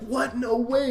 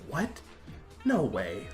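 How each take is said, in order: First: It sounds like pleased, excited surprise. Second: It sounds like displeased, negative surprise.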